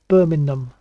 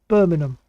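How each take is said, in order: The two takes are said the same way.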